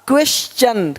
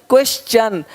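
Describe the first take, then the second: Both takes have the same delivery.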